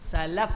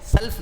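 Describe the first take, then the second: First: A short vowel is heard after the L. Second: No vowel is heard after the L. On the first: It means the pious predecessors. The speaker calls it right. "सलफ है, लाम पर जबर" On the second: It means taking a loan. The speaker calls it wrong. "सल्फ नहीं बोलना"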